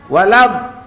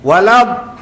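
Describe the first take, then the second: No difference in how they are said.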